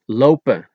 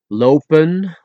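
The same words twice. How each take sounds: First: The final n sound is dropped. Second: The final n sound is pronounced.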